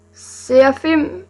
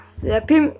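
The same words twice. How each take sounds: First: "Serafim" drawn out with an F sound, ending higher. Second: "Serapim" with a P sound before "im". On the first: Vlogger weighing how a name is said, "Serafim" with an F sound. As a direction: say "Serafim" slowly, with F before the final "im". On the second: Vlogger offering the other reading of a name, "Serapim" with a P sound. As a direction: say "Serapim" with P in place of F. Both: Shown as a demonstration. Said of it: "Det er spørgsmålet".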